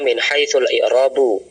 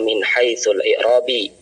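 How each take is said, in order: First: The last word ends with an 'u' vowel. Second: The last word ends with an 'i' vowel. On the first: The speaker calls it right. "Maka dibaca min haitsul i'rabu" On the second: The speaker calls it wrong.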